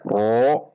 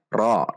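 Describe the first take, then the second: First: The ra is said with rounded lips. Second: The ra is said with raised tongue root. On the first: The speaker calls it wrong. "Tidak dengan membulatkan bibir, tidak dibaca ro" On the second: The speaker calls it right. "namun dibaca ro dengan menegangkan atau menaikkan pangkal lidah"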